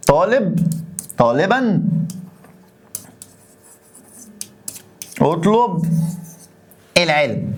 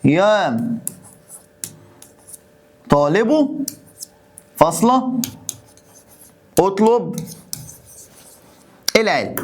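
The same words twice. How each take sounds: First: Each word set apart, falling; slow word-by-word board dictation. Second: طالب and فاصلة lifted with a rising tune; word by word, rising on طالب; slow dictation with rises. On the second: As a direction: dictate slowly, rising on each word before العلم. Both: Shown as a demonstration. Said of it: "تعالى اما اوديك الناحية التانية".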